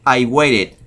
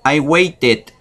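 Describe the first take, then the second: First: The American way, "I waited" with the T tapped into a quick R; alternative pronunciation. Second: "waited" with a crisp, clear T, wei-ted; standard pronunciation. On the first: Teacher showing what some people say, "waited" with a flapped T. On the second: Teacher modelling "waited" with a clear T. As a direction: say "I waited" with a sharp T in the middle. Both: Shown as a demonstration. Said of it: "O unos dicen".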